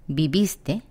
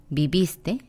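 The two takes are said the same way.

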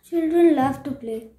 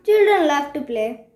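First: It is said in a sad tone. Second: It is said in an arrogant tone.

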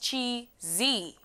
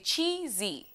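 First: The stress falls on the second syllable. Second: The stress falls on the first syllable. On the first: The speaker calls it wrong. "not chi-zi" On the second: The speaker calls it right. "it tells us to say chi-zi"

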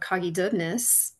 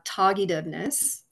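First: The name begins with a K sound. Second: The name begins with a T sound. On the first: This is the older form of the name. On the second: This is the more modern form of the name.

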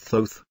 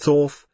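First: The O vowel is long. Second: The O vowel is short. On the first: "pronounced with a long O" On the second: "Someday people say Thoth"

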